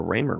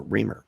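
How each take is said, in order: First: Raymer said with a long AY, as in "ray"; first vowel of Raymer like "day". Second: Reamer said with a long EE, as in "ream"; first vowel of Reamer like "see". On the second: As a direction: say Reamer as REE-mer. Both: Shown as a demonstration. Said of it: "how you wanna say it".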